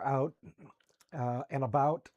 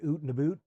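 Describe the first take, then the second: First: Out is said with its usual vowel. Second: Out sounds like oot, Canadian style.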